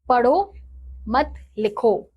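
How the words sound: The pause comes after the first word.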